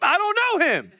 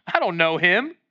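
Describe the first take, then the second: First: High-pitched, hammed-up outburst; heated denial. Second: Offhand brush-off in usual pitch; dismissive denial. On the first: Peter cursing and denying Jesus, high mock-angry outburst. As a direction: protest it in mock outrage. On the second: Acted. Peter denying Jesus to the young girl, casual dismissal. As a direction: shrug off the accusation.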